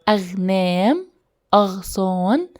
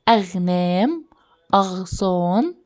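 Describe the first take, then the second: Both takes have the same delivery.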